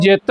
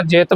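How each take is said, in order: First: ਜਿਤ squeezed with a hard final T; ਜਿਤ said over-tight, like "jitt"; too tight. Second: ਜਿਤ with an open vowel and light ending; relaxed pronunciation. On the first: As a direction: clip ਜਿਤ tightly as a mistaken reading. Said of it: "ਬਾਹਲਾ ਕੱਸ ਕੇ ਨਹੀਂ ਬੋਲਣਾ". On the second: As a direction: say ਜਿਤ without squeezing it. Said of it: "ਜਿਤ ਬੋਲਣਾ". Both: Shown as a demonstration.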